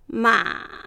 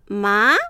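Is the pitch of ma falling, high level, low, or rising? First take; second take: low; rising. First: The pitch is held down low throughout. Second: The pitch rises sharply from start to end. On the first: "第三声、低く抑える" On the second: "第二声、最初は弱く、だんだん強く、勢いよく上げる。"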